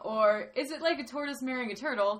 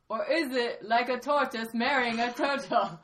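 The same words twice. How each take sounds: First: It is spoken in the speaker's natural accent. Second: It is spoken in a put-on Myanmar accent.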